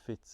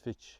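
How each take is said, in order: First: The name ends with a 'ts' sound. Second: The name ends with a 'ch' sound.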